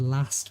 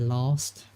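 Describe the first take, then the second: First: The vowel is a short, flat 'a'. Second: The vowel is a long, broad 'ah', almost R-like. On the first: This is how others from England say it. "instead of last" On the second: This is how the speaker's own area says it. "we'd say last"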